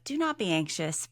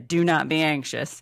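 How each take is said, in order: First: It is said gently and lovingly. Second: It is said harshly and sternly.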